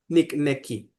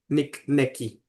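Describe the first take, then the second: Both takes have the same delivery.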